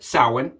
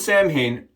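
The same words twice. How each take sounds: First: It is pronounced the traditional, unspelled way. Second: It is pronounced the way it is spelled. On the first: The speaker calls it right. "how you actually say it" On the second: The speaker calls it wrong.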